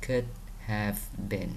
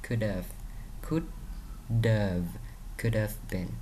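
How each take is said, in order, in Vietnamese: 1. Could have được đọc thành hai từ đầy đủ. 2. Could have được rút gọn thành could've. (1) "Còn nó viết đầy đủ thì mình đọc là" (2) "Khi mà nó viết tắt mình đọc là"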